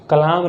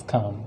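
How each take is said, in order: First: "कलाम" with an audible L; mispronounced calm. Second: "काम" as one syllable, silent L; correct pronunciation. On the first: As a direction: say "कलाम", wrongly adding la. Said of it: "कलाम नहीं पढ़ देना है". ("कलाम" में ल जोड़कर गलत उच्चारण) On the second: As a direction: say "काम" with long aa, no L. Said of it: "उसको काम कहते हैं". ("काम", ल को चुप रखकर) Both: Shown as a demonstration.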